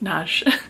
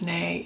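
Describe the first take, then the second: First: The surname is said as 'Nagy'. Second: The surname is said as 'Nay'. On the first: The speaker calls it right. "It's Nagy" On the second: The speaker calls it wrong. "I pronounced it as Nay"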